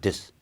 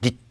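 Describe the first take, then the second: First: The final consonant is released softly. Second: The final consonant is cut off abruptly. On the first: The speaker calls it right. "this 하고 약하게 흘리잖아요" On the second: The speaker calls it wrong. "우리처럼 완전히 막 this 하고 막아버리질 않고"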